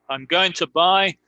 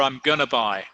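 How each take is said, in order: First: Going to is said with a reduced to. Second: Going to is merged into gonna. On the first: "El to es muy reducido" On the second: "otras personas que simplemente dicen I'm gonna"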